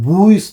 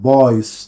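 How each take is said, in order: First: The vowel is a closed, puffed oo sound. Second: The vowel is an open o sound. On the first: The speaker calls it wrong. "ബൂയ്സ് എന്നല്ല" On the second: The speaker calls it right. "ഓ തുറന്ന വായുവിൽ കൂടിയാണ്"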